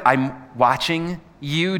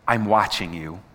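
First: "I'm watching you" drawn out slowly with a questioning rise at "you"; slow, rising question. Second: "I'm watching you" said low, a touch menacing; low, ominous read. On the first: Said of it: "do you like it when someone's watching you". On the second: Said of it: "talk about this phrase". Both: Shown as a demonstration.

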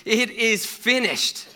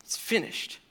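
First: High, loud, slow final cry. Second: Breathy whisper, hushed and awed; whispered echo. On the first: Jesus on the cross yells out with his last breath, loud and slow. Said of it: "he yells out, as Mark says, in a loud voice". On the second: Preacher echoes Jesus' last words to the congregation in a whisper. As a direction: let it fall to a whisper. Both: Acted.

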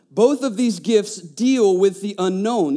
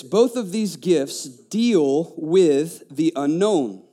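First: Said in the usual way. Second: Slow emphasis. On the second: Shown as a demonstration. Preacher to the congregation, slowed weighty emphasis. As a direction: lay each word down slowly.

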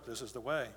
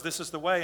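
First: Much lower and softer solemn echo; Mandalorian echo. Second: Lightly voiced solemn warrior reply, close to own voice; a hint of a ritual answer, said evenly; Mandalorian reply. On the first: Retold or imitated. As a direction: murmur it back like a sacred creed. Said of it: "the other Mandalorian goes". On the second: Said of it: "he just looks and goes".

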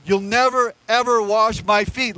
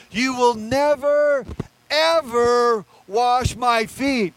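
First: "never, ever" stressed firmly at normal pace; a quicker, matter-of-fact "never, ever"; emphatic never. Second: Slow, drawn-out "never, ever", each word leaned on hard; emphatic never. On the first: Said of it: "it's very emphatic". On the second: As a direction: dwell on "never" and "ever" as if refusing forever. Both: Shown as a demonstration.

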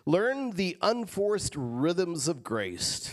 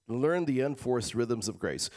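First: Slow savoring read. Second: Said in the usual way. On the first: Acted. Savoring verse slowly.

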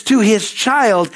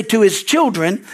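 First: Put-on "child" drawn out slowly as the right word; slow right down and land on "child"; stress on child. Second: Put-on "children" set out slowly as the wrong word; stress on children. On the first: Corrects to the singular word. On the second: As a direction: slowly mark "children" for contrast. Contrasts plural with singular in scripture. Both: Shown as a demonstration.

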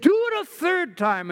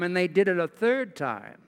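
First: High, emphatic order, read aloud; prophet's command. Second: Said in the usual way. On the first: Acted. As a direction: raise your voice into Elijah's command. Elijah orders them, read aloud.

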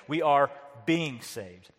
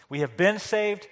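First: "being" drawn out slowly; pause, then lean on "being"; slow, weighty emphasis on "being"; stress on being. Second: "been" lifted and held; raised emphasis on "been"; stress on been. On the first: Ongoing set against past salvation. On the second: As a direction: lean on "been" to mark it as done. Past set against ongoing salvation. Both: Shown as a demonstration.

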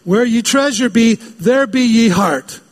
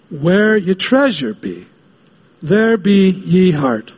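First: Higher, slow hammed-up pirate. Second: Slow, lightly voiced pirate; a hint of pirate drawl. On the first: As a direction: ham up the pirate line slowly. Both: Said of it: "talks like a pirate".

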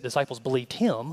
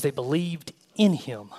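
First: Said in the usual way. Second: Slow down and lean on "in"; "in" set apart and emphasized after "believed"; deliberate stress on the word "in". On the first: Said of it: "says they believed in Him". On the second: Shown as a demonstration. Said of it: "doesn't say that disciples believed Him".

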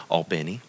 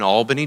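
First: Albany said as ALL-bin-ee, open aw sound; Atlanta pronunciation. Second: Albany said as AL-buh-nee, flat a; Albany with the AL stressed, unglided; local pronunciation. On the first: Retold or imitated. Pastor imitating Atlanta people saying Albany, aw vowel. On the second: Shown as a demonstration. Pastor's own Albany before the Atlanta version, plain. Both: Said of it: "as all the people from Atlanta will say".

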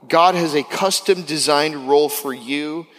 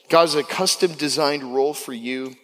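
First: Slow, weighty emphasis on God; stressed teaching line; emphatic. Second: Said in the usual way. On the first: Shown as a demonstration. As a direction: lean on God slowly so they write it down. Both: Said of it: "I want you to write this down".

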